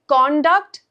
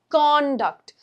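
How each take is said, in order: First: The stress is on the second syllable. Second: The stress is on the first syllable. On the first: It is a verb. "As a verb, on the second part" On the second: It is a noun meaning behavior. "as a noun"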